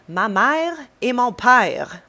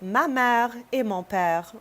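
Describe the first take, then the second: First: It is said in a Quebecois French accent. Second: It is said in a standard French accent. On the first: "they're gonna say it in Quebecois" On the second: "my French would be like"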